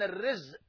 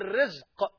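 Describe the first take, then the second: First: The final consonant is a glottal stop. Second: The final consonant is a deep 'q' sound. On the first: The word means calamity. "الرزق بالهمزة المصيبة" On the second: The word means sustenance. "اما الرزق بالقاف هو ما عرفته"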